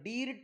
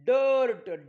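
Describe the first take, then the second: First: The vowel is said as a short 'ih'. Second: The vowel is said as an 'er' sound. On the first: The speaker calls it wrong. "डिर्ट नाही" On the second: The speaker calls it right. "आयचा उच्चार अ होतो"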